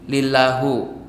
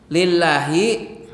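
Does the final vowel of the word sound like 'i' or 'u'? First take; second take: u; i. First: The word ends with an 'u' vowel. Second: The word ends with an 'i' vowel. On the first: The speaker calls it wrong. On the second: The speaker calls it right.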